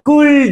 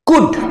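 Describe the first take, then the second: First: An L sound is heard before the final d. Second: No L sound is heard before the final d. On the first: The speaker calls it wrong. "কেউ ভুল করে কুল্ড বলিও না, কুল্ড নয়" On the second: The speaker calls it right. "এল এর উচ্চারণটা হয় না"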